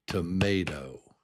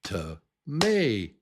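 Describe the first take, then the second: First: Said in the usual way. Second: "tomato" broken apart, MAY raised and loud; ta, then jump up on MAY, drop to do in "tomato"; middle syllable up high. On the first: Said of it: "I'll just say it naturally". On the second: Shown as a demonstration. Teacher says do it up here, "tomato" split and peaking on MAY. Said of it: "Do it up here".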